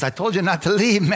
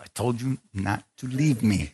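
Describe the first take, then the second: First: Higher-pitched mock scolding; heated scolding. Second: Measured, held-down mock reproach; restrained scolding. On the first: Wife repeating complaint to husband, heated scolding. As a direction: imitate a wife telling him off, pitched up. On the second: Wife catching husband up front, restrained scolding. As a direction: imitate a wife scolding under control.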